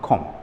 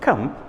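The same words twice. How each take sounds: First: The vowel is a rounded 'o' sound. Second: The vowel is an open unrounded 'uh' sound. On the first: The speaker calls it wrong. "and not come" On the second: The speaker calls it right. "the correct pronunciation is come"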